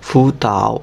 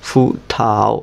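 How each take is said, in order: No difference in how they are said.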